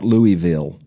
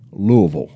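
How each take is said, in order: First: It is pronounced the way northerners say it. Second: It is pronounced the local Kentucky way. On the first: The speaker calls it wrong. "Not Louisville. That's if you live up north" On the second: The speaker calls it right. "that's the way I say it"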